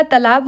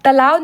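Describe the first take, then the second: First: तालाब with a firm final b; correct तालाब. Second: तालाब ending in a v sound, "talaav"; wrong तालाब. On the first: Teacher corrects the spelling, तालाब with final b. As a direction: end तालाब on b, not v. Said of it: "होता है". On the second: Teacher shows the mistake, तालाब said as talaav. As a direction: soften the final b of तालाब to v. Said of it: "नहीं होता है". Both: Shown as a demonstration.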